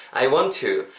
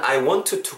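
First: "I want to" run together with a single T; linked WANT TO. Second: "I want to" with a separate T in "want" and in "to"; don't link "want" and "to", sound both T's; over-careful WANT TO. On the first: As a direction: merge the T of "want" into "to". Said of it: "정도로 발음을 해주셨으면 좋겠습니다". ("I want to"의 t를 하나로 이어서 발음) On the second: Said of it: "굳이 이렇게 발음하지 마시고". ("I want to"를 원투로 끊어 또박또박) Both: Shown as a demonstration.

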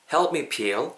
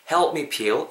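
First: "help me peel" as helpu mi piri, extra vowels; wrong spelled-out pronunciation. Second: "help me peel" linked, p unreleased; natural pronunciation. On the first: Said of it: "help me peel이 아니죠". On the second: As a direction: say "help me peel" smoothly, no vowel after the p. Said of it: "요렇게 발음이 된다라는 거". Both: Shown as a demonstration.

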